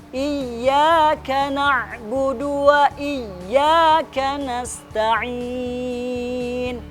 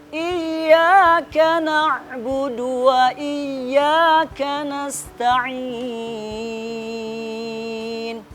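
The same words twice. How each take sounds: No difference in how they are said.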